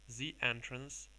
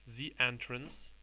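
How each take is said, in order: Both takes have the same delivery.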